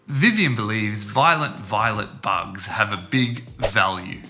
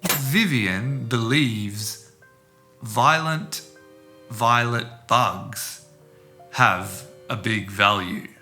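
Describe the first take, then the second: First: The sentence is spoken quickly. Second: The sentence is spoken slowly. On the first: "then quickly" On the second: "I'll say it slowly"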